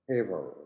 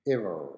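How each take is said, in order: First: It is said in an American accent. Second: It is said in an American accent.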